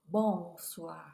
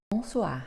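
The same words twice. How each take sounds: First: Bonsoir stressed on the first syllable, BON-soir; wrong stress. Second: Bonsoir stressed at the end, bon-SOIR; final stress. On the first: Teacher shows the learner the wrong stress, BON-soir. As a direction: put the weight at the start of bonsoir, wrongly. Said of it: "ce n'est pas". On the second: Teacher gives the learner the correct final stress, bon-SOIR. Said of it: "L'accent tonique est presque toujours à la fin". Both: Shown as a demonstration.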